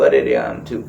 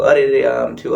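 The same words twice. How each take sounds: First: Much lower, drooping whine that rises at the end; mock whining moan. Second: Lightly imitating a self-pitying complainer; mock whining. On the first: Mocking a self-pitying elder to listeners, lower whining moan. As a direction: drag it down like a moaning complainer. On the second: Mocking old people who whine to everyone, mock whining. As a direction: sigh it out like someone feeling sorry for themselves. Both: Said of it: "તમે રોદણા રોશો તો".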